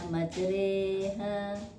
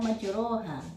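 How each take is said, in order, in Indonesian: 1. Vokal setelah r terdengar seperti e. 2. Vokal setelah r terdengar seperti o. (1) "tapi dibaca majreha" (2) "tulisannya majroha"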